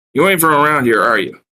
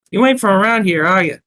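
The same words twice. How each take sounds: First: Said in the usual way. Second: Put-on line in a high Brooklyn accent; raised, louder Brooklyn barmaid voice; Brooklyn barmaid's accent. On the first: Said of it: "I inquired". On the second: Narrator mistakenly voicing his line as the barmaid, Brooklyn accent. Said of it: "that's the wrong voice".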